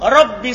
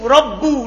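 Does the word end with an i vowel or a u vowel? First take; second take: i; u. First: The word ends with an i vowel. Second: The word ends with a u vowel. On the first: The speaker calls it right. "Tapi dalam Al-Quran dibaca apa? Kasro" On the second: The speaker calls it wrong. "Dia baca dom? Domma"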